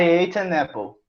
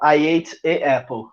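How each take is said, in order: First: The article ends in n, linking into apple. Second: The article has no n sound before apple. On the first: The speaker calls it right. "Ele soa mais fluido" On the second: The speaker calls it wrong. "Fica estranho"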